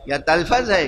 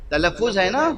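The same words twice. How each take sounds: First: تلفظ said wrongly as talaphaz, with an aspirated ph and a flat a; mock mispronunciation. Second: تلفظ said correctly as talaffuz, with a clear u before the final z; correct pronunciation. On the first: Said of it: "کیا ہے؟". (تلفظ کا غلط تلفظ، تَلَفَّظ کی نقل) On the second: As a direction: give تلفظ its proper form, talaffuz. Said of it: "یا تلفظ ہے، کیا ہے؟". (تلفظ کا درست تلفظ، تَلَفُّظ) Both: Shown as a demonstration.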